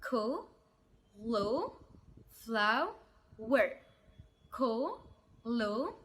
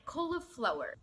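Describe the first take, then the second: First: Cauliflower drawn out very slowly, each syllable apart, rising at the end; very slow Cauliflower, one syllable at a time; split into syllables. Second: Said in the usual way. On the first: Shown as a demonstration. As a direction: stretch Cauliflower into four slow pieces. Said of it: "لأربع مقاطع". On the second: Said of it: "نركز بقى في نطقها".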